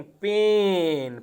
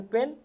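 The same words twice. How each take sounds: First: "पेन" with a long, drawn-out ay; long vowel. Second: "पेन" with a short, quick e; short vowel. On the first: Teacher showing the word for dard, long stretched "पेन". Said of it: "पेन means दर्द". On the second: Teacher contrasting kalam with dard, short "पेन". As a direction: keep the vowel in "पेन" brief. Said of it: "पेन means कलम". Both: Shown as a demonstration.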